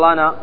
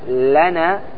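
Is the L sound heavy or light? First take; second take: heavy; light. First: The L is pronounced heavy and thick. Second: The L is pronounced light and thin. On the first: The speaker calls it wrong. "ما تقول لنا" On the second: The speaker calls it right. "وإنما تقول ماذا؟ لنا"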